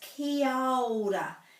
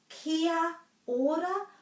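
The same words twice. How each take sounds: First: The a and o run together into one. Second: Every vowel is said as a separate sound. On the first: "they put this ao together" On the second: "it's either kia ora"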